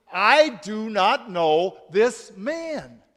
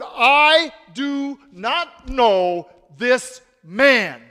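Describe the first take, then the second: First: Slow, firm denial; sworn denial. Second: Loud, very slow shouted denial. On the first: Peter denying Jesus to the servant girl, slow and firm. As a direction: say each word slowly as an oath. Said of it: "Peter swore an oath, saying". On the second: Peter shouting his denial at the bystanders, loud and slow. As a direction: shout it word by word, desperate. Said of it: "Peter began to curse". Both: A narrator's reading.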